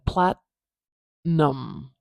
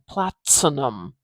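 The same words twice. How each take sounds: First: The T is held without a burst. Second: The T is released with a clear burst. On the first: "I'm saying platinum" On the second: "I'm not exploding it out of my mouth. I'm not saying platinum"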